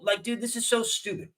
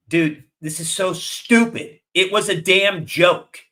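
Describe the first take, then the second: First: Said in the usual way. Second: Louder, slow, exasperated rant; fed-up anger. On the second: Real, not acted. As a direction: spit it out, fed up and mad. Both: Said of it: "the reason why I'm sounding like this".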